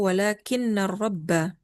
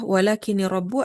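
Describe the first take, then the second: First: The n is doubled and the noun ends in -a. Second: The n is short and the noun ends in -u. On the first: It is a particle that makes the following noun accusative. "kalau kita baca syaddah" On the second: It is a conjunction that leaves the case of the noun unchanged. "takhfif, nggak syaddah"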